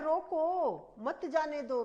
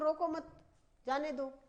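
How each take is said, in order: First: The pause comes after 'roko'. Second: The pause comes after 'mat'. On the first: Stop them; they must not go. "रुकना है उसको, अनिवार्यता" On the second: Do not stop them; let them go. "जाने दो"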